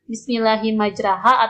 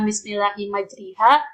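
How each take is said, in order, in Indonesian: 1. Vokal setelah r terdengar seperti a. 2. Vokal setelah r terdengar seperti i.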